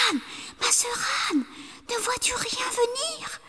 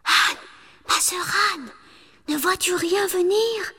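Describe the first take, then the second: First: Urgent whispered call; wife whispering to Anne in fear. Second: Higher call up the tower; wife calling to the tower top; anxious calling. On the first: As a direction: whisper up so he won't hear. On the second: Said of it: "sa cadette lui demandait". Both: A narrator's reading.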